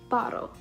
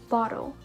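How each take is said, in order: Both takes have the same delivery.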